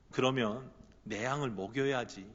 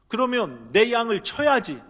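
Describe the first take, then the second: First: Soft, low, intimate plea; hushed gentle urging. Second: Louder and higher, 쳐야지 pressed down hard; a strong call to get back to work; firm urging Jesus. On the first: Jesus quietly urging Peter to feed his sheep, hushed. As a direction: coax him quietly, as if leaning close. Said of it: "이렇게 속삭이시는 것 같아요". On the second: Jesus firmly calling Peter to tend his sheep, raised voice. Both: Acted.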